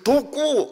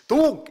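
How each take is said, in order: First: An extra vowel is added after the final consonant. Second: The word ends abruptly on the final consonant. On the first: "독구 이렇게 확실하게 발음을 해야 된다고" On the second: "독 이러면 야 발음이 그게 뭐냐"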